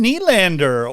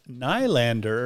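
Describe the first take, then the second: First: Said in the usual way. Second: Nylander said "nye-lander" with long eye; own pronunciation. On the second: Shown as a demonstration. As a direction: Nylander with NYE first syllable, slow. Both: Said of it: "or as I like to pronounce it".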